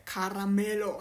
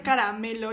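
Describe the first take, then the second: First: "caramelo" with the r rolled like rr. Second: Said in the usual way. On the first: Retold or imitated. Guest shows how the director said it, "caramelo" with rolled r. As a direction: imitate him trilling the r in "caramelo". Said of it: "Quiero poner como el r a todo". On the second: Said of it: "yo decía caramelo y él decía caramelo".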